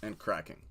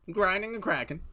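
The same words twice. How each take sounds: First: Said in the usual way. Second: Higher, louder hyped repeat. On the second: Real, not acted. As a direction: punch it up the second time.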